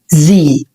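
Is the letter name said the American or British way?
American. It is said as zee, ending in a vowel. "في اللغة الانجليزية الامريكية"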